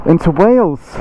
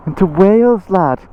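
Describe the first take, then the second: First: Said in the usual way. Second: A weak, put-on Welsh lilt on "into Wales, lad"; bad Welsh accent. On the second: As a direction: try a Welsh accent and miss it, a touch higher. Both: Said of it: "That was the worst Welsh accent".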